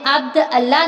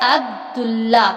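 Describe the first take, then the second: First: The two words are separate, with the glottal stop. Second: The words are joined, with no glottal stop. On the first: The speaker calls it wrong. "हमने अब्द अल्लाह नहीं पढ़ा" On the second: The speaker calls it right. "बल्कि क्या पढ़ा है?"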